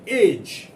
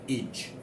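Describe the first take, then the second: First: The ending has a long 'ay' vowel. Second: The ending has a short 'e' vowel. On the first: The speaker calls it wrong. "Do not pronounce it age" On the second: The speaker calls it right. "but edge"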